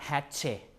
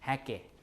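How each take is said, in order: First: The middle consonant is a ch sound. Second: The middle consonant is a long k sound. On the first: The speaker calls it wrong. "not hatche" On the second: The speaker calls it right. "you just pronounce it as a K"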